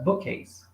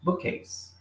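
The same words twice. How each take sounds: First: The words join with a single k sound. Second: The same.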